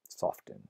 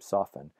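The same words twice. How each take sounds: First: The T sound in the middle is pronounced. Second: The T sound in the middle is silent. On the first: The speaker calls it wrong. "That sounds terrible" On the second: The speaker calls it right. "you never pronounce the T in soften"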